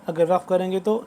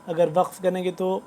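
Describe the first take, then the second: The two takes are said the same way.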